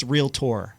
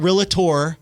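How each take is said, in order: First: "realtor" in two syllables, REEL-tor; crisp two-syllable "realtor", ending in "tor"; realtor pronounced correctly. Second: "realtor" stretched to three syllables, real-uh-tor; wrong "realtor", as REE-luh-tor; realtor mispronounced. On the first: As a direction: say "realtor" with no middle "uh" and a full "-tor". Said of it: "It's realtor". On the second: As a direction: say "realtor" slowly with an extra "uh" in the middle. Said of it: "it's not realtor". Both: Shown as a demonstration.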